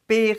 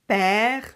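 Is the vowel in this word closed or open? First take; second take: closed; open. First: The vowel is said with a closed mouth. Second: The vowel is said with an open mouth. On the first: The speaker calls it wrong. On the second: The speaker calls it right. "You see, my mouth is open"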